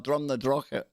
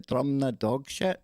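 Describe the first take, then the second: First: The last part sounds like 'drochit'. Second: The last part sounds like 'dog shit'. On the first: This is the local pronunciation. The speaker calls it right. "No, Drum na Drochit. Yep, there you go" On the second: An outsider is mangling the name. The speaker calls it wrong. "tourists trying to pronounce that"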